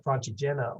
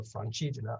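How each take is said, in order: First: Francigena with the stress on the next-to-last syllable, GE. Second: Francigena with the stress on the CI, quick unstressed ending. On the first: Unsure hiker trying out the accent, Francigena stressed on GE. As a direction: say Francigena as fran-chi-JEN-a. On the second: Unsure hiker offering the other accent, Francigena stressed on CI. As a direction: say Francigena as fran-CHEE-je-na. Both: Shown as a demonstration. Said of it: "where the accent is".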